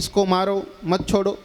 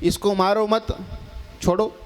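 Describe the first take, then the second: First: The pause comes right after 'maaro'. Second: The pause comes right after 'mat'.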